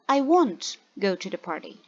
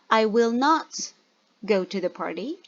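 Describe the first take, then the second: First: 'Will not' is contracted into one word. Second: 'Will not' is said as two full words.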